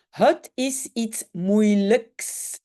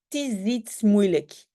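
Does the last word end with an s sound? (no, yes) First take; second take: yes; no. First: The last word ends with an s sound. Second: The last word ends without an s sound. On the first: This is the standard genitive form. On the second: This is the informal in-between speech form.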